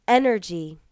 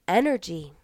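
No difference in how they are said.

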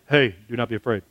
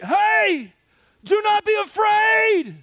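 First: It is said quietly, as if close by. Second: It is shouted loudly, as if from far off.

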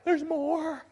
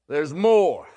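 First: It sounds warm and encouraging. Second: It sounds angry and scolding.

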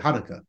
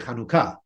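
First: The stress is on the first syllable. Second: The stress is on the last syllable.

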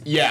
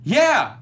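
First: It sounds flat and annoyed. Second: It sounds cheerful and happy.

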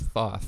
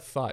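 First: The name ends with a th sound. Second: The name ends with a plain t sound. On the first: The speaker calls it right. "it's Thoth, like the Egyptian god of learning" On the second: The speaker calls it wrong. "It's not thought"

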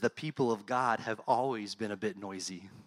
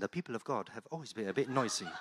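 First: It is said in the speaker's plain accent. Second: It is said in an English accent.

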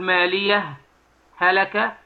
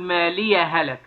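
First: There is a short pause after the first word. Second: The words are joined without any pause.

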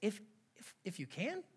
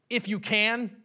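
First: It sounds gentle and teasing. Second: It sounds indignant and offended. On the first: Really? Of course I can, buddy. The speaker calls it right. "I kind of see Jesus almost like, really? Come on, buddy" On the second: Do you know who I am? The speaker calls it wrong. "I don't see the tone of Jesus in this being"

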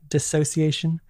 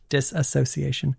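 First: The word is said with five syllables. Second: The word is said with six syllables. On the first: The speaker calls it right. "please pronunciate it right" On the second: The speaker calls it wrong.

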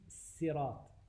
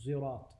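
First: The first sound is a plain s. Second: The first sound is a z-like sound. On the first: "he reads سيرات with a scene" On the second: "So to say Zirat"

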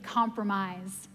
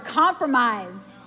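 First: The word is said at normal volume. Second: The word is said loudly.

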